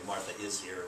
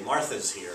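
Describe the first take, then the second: First: The word 'is' is said in full. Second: The word 'is' is shortened onto the name. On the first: "instead of saying Martha is here" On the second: "it's kind of contracted. We say Martha's here"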